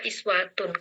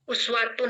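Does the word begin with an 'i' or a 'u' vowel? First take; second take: i; u. First: The word begins with an 'i' vowel. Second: The word begins with a 'u' vowel. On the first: This is the reading of this reciter's tradition. "dibaca iswatun" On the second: This is the common reading. "itu yang uswatun hasanah"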